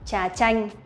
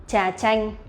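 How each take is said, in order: The two takes are said the same way.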